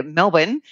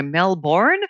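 First: Melbourne said MEL-bun, second syllable swallowed; Melbourne as two clipped syllables, MEL-bn; Aussie pronunciation. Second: Melbourne said MEL-born with a full second syllable; Melbourne spelled out as MEL-BORN; outsider pronunciation. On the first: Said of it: "as we say here". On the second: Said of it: "as people will know". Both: Shown as a demonstration.

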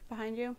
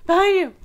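First: Quiet. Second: Louder and higher, called out. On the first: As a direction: murmur it under the breath. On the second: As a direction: call it out suddenly. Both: Shown as a demonstration.

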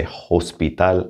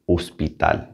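First: Hospital with the H sounded at the start; the wrong Spanish hospital, starting on a breathy H sound; H pronounced. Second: Hospital in Spanish, starting straight on the O; hospital with the H left silent. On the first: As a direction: say hospital with an audible H. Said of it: "I didn't say hospital". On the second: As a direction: say hospital as "os-pee-tal", no H. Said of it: "and that is the H". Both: Shown as a demonstration.

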